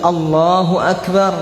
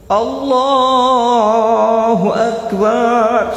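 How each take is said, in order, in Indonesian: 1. Kata Akbar dibaca pendek. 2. Kata Akbar dibaca panjang. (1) "Yang sunnah pendek" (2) "Sampai panjang akbarnya"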